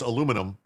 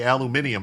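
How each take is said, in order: First: It is said with four syllables, American style. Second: It is said with five syllables, British style. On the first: "I know it's aluminum" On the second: "that's how the British say it"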